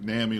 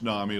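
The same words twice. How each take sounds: First: The first vowel sounds like in mammy. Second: The first vowel sounds like in mommy. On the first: Some places say it this way. "places they they pronounce it NAMI like mammy" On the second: This is how it is pronounced. "it's pronounced NAMI like mommy"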